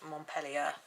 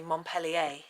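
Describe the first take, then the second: First: The name is said with an English pronunciation. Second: The name is said with a French pronunciation. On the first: "We say Montpellier because we're not French" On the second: "if you're French, you would say Montpellier"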